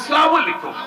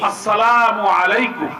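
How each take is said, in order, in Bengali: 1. অভিবাদনটির উচ্চারণ অযত্নের, বাংলা ঢঙের। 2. অভিবাদনটির উচ্চারণ পরিষ্কার, বিশুদ্ধ আরবি। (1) "ওরা বলে" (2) "সালামের একটা আরবি বিশুদ্ধ উচ্চারণ আছে না"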